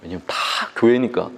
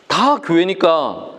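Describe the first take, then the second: First: Said in the usual way. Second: "다 교회니까" drawn out slowly, each syllable weighted; slow emphatic repeat. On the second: Real, not acted. Pastor drives the point home to the congregation, slow emphasis. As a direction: spell out "다 교회니까" word by word.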